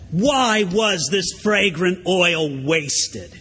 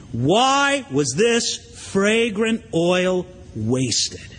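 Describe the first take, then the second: First: Very slow, each word weighed; indignant reading. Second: Very slow, each word stretched out; indignant quote. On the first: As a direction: read it slowly and gravely. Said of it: "indignant among themselves and said". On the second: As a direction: drag it out slowly in disapproval. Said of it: "criticized her so sharply". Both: Acted.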